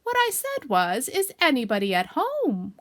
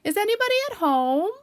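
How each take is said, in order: First: Loud, slow, emphatic repeat; slow, insistent calling out; calling very loudly. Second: High, loud sing-out question; raised hallooing voice; calling out. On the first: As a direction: spell it out loudly for someone not answering. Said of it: "called Pooh out very loudly". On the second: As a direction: call down a hole to whoever's inside. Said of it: "and called out". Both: Acted.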